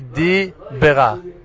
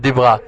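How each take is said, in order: First: The two words are said clearly separated. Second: The two words are run together as one. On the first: The speaker calls it right. "To say Di Bera. Not to attach those two words to be one" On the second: The speaker calls it wrong. "It's not Dibra"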